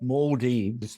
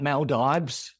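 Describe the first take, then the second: First: It is said the way locals say it. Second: It is said the way Australians say it. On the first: "That's where how they say it, Maldives. The local pronunciation" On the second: "us Aussies that talk about Maldives"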